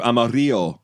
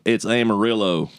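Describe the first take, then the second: First: Amarillo as ah-ma-REE-oh; tourist pronunciation. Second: Amarillo as am-a-RILL-oh; local pronunciation. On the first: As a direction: say Amarillo Spanish-style, silent L. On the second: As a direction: say Amarillo Texan-style, with a clear L. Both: Retold or imitated. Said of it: "and they're like".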